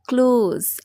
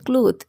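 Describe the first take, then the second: First: The word ends with a z sound. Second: The word ends with a th sound. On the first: The speaker calls it right. "এটা হবে ক্লোজ" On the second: The speaker calls it wrong. "এটা তো ক্লোথ but it's not true"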